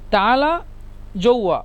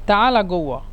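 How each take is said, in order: First: The second word starts with a j sound. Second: The second word starts with a hard g sound. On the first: This is the standard form of the word. "মূলত জৌয়া" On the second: This is how the regional dialect says it. "মিশরের আঞ্চলিক ভাষায় বলে"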